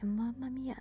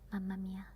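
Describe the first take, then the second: First: It is said in an exaggerated stereotypical Italian accent. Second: It is said in a natural, unexaggerated Italian accent. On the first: It imitates how others picture Italians talking. "They were like" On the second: It is how a real Italian says it. "I just can't pronounce it as they do it"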